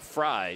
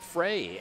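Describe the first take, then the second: First: The name is said with an 'eye' vowel. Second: The name is said with an 'ay' vowel. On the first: The speaker calls it right. "Fry, she pronounces it" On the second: The speaker calls it wrong. "excuse me, pronounce that correctly"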